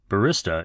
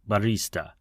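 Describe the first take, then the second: First: The word is said the common British way. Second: The middle vowel is drawn out, Italian style. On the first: "the more common usage in the U K and Western Europe" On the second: "the Italian pronunciation drags the E sound in the middle"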